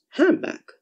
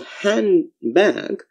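First: The sound before the b is m. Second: The sound before the b is n.

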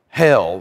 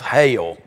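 First: It is said in a general American accent. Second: It is said in a Southern US accent.

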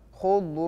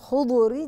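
First: The final consonant ends cleanly with no vowel. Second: The final consonant is released with an extra vowel. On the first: The speaker calls it right. "ما بقلقل خضر" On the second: The speaker calls it wrong. "بتقلقل خضري"

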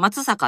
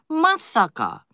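First: The accent is not on the first syllable. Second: The accent is on the first syllable. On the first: This is how outsiders tend to say it. The speaker calls it wrong. "松坂って言いたくなるでしょ" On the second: This is how the locals say it. The speaker calls it right. "まにアクセントがつくらしいです"

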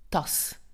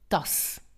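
Both takes have the same delivery.

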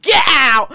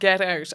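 First: It is shouted in a gruff London accent. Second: It is shouted in a fairly neutral accent. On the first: "I could not do that without being like" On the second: "I had to shout"

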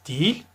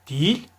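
Both takes have the same delivery.

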